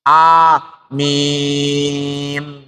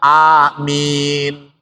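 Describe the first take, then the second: First: The vowel before the final m is held very long. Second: The vowel before the final m is held briefly. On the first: "dan boleh enam harokat" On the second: "boleh dibaca dua harokat"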